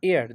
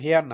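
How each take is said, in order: First: The word begins with a vowel sound. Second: The word begins with an h sound. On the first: The speaker calls it right. "উচ্চারণটা হলো এয়ার" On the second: The speaker calls it wrong. "এখানে কিন্তু হেয়ার না"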